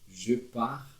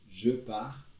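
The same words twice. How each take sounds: The two takes are said the same way.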